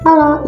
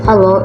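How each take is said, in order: First: It is said in a small, thin voice. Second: It is said in a natural, ordinary voice. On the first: "Contoh suara kecil ada seperti ini" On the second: "Suara natural itu seperti ini"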